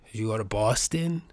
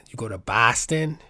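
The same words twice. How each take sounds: First: "Boston" with a rounded "aw", BAW-stən; "Boston" said with an aw vowel; Boston pronunciation demo. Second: "Boston" with an open "ah", BAH-stən; "Boston" said with a broad ah vowel; Boston pronunciation demo. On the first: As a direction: try "Boston" as "Bawston", softer. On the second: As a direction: try "Boston" as "Bahston", rising at the end. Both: Shown as a demonstration.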